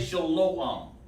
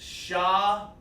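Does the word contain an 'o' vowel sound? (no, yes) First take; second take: yes; no. First: The word is said with an 'o' vowel. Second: The word is said without an 'o' vowel. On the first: The speaker calls it wrong. "Do not say shalom. Don't do that" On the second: The speaker calls it right. "There is no O sound in the Hebrew"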